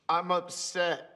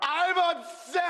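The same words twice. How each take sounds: First: It is said fairly quietly. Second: It is said loudly.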